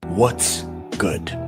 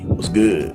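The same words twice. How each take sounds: First: It is said in a standard accent. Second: It is said in a hood accent.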